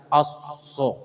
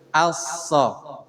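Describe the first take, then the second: First: The s sound is made with rounded, pushed-out lips. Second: The s sound is made with plain, unrounded lips. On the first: The speaker calls it wrong. "tidak monyong ngucapinnya, tidak asso" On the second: The speaker calls it right. "Jadi bukan huruf dari bibir"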